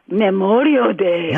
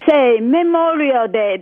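First: The voice is low and sultry. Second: The voice is plain and ordinary. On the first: The speaker calls it right. "In your sexiest voice" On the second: The speaker calls it wrong. "That's not sexy"

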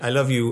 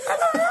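First: It is said at a lower pitch. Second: It is said at a higher pitch.

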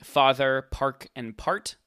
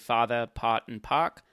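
First: The words keep their r sounds, in a general accent. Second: The r sounds are dropped, in a Boston accent.

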